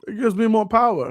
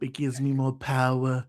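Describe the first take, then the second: First: It is said in his own normal voice. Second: It is said in a put-on impression voice. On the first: The speaker calls it wrong. "You did do the voice" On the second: The speaker calls it right. "That's what you had to do"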